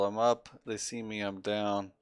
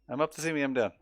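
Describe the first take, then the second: First: The phrase is spoken at a normal, measured pace. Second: The phrase is spoken very fast and run together. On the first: "the old drill, the military drill" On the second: "it's like they say it really fast"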